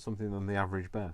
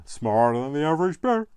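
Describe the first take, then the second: First: Said in the usual way. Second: Louder, higher cartoon bear catchphrase; hammed-up Yogi Bear impression. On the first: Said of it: "I sound, suddenly sounded like that". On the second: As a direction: boom it out like a jolly cartoon bear. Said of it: "suddenly sounded like, um, Yogi Bear".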